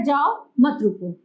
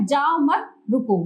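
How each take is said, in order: First: "जाओ" alone, a pause, then "मत रुको" together; pause after जाओ. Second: "जाओ मत" said together, then a pause before "रुको"; group "जाओ मत", break, then a separate "रुको". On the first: Teacher showing that it means go, pause after "जाओ". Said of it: "जाना है रुको नहीं". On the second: Teacher showing that it means stop, pause after "मत". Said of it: "जाओ नहीं बल्कि रुको". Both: Shown as a demonstration.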